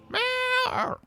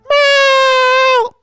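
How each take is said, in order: First: The meow is said fairly quietly. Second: The meow is said much more loudly.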